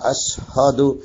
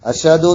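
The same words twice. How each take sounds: First: The 'h' sound after 'sh' is heard. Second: The 'h' sound after 'sh' is dropped. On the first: The speaker calls it right. "ഹാവ് വരണം" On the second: The speaker calls it wrong. "എന്നൊന്നല്ല"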